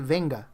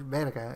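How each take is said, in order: First: The middle consonant is an n sound. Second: The middle consonant is an r sound. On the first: The speaker calls it wrong. "He would say venga" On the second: The speaker calls it right. "the word verga"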